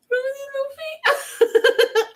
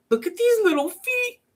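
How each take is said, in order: First: Very high, slow squeal breaking into laughter; overwhelmed by how cute it is; squealing at cuteness. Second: Much higher, cutesy squeal; cooing over cuteness. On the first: Crafter gushing over the chicks' tiny feet, laughing squeal. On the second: Crafter showing viewers the chicks' tiny feet, cutesy high coo. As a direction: gush over something adorable. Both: Real, not acted.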